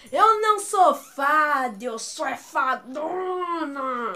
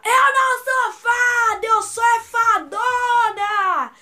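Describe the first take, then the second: First: Slow, drawn-out quoted movie line; Kéfera's film line. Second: High, very loud, slow drawn-out yell; shouted. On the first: Fan quoting the film, slow theatrical imitation. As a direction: stretch it out theatrically, last word longest. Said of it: "tem uma parte do filme que a Kéfera fala". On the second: Siblings yelling along in the cinema, shouted quote. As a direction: yell the movie line, stretching every word. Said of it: "Eu e a Giovana gritamos no cinema". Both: Retold or imitated.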